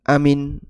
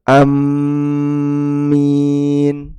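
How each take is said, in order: First: Short first vowel, single m, short final i. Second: Short first vowel, doubled m, long final i. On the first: "hamzah dibaca pendek, mim tidak ditasdid dan huruf ya dihilangkan" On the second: "memendekkan hamzah, mimnya ditasdid dan ada huruf ya"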